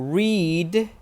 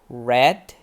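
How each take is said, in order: First: The vowel is long, as in 'need'. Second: The vowel is short, as in 'bed'. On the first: It is the present tense. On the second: It is the past tense.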